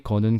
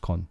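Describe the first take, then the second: First: The word is said fully in two syllables. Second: The word is said quickly as one syllable.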